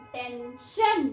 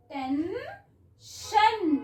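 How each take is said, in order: First: Said in the usual way. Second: tension very slowly stretched out, each sound drawn long; slow blended word. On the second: Shown as a demonstration. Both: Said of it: "ट, ए, न".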